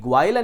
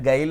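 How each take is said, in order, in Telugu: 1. ఈ పదం 'gw' ధ్వనితో మొదలవుతుంది. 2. ఈ పదం సాధారణ 'g' ధ్వనితో మొదలవుతుంది. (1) "ఈ గ్వాయిల్ అనే వర్డ్" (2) "గైల్ అనే ప్రొనౌన్స్ చేస్తాం"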